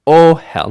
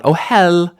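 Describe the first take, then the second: First: Ohel with the O punched high and loud; initial stress. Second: Ohel with the second syllable high, loud and stretched; wrong final stress. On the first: Teacher showing the second feature, initial stress on Ohel. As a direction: hit the first syllable of Ohel hard. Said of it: "initial stress". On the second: Teacher showing learners what to avoid, final stress on ohel. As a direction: throw the weight onto HEL in ohel. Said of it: "not ohel". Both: Shown as a demonstration.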